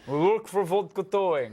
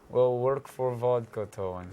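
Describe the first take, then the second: First: It is said with lively, loud energy. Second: It is said in a sleepy, low-energy way.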